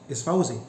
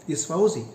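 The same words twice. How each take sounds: The two takes are said the same way.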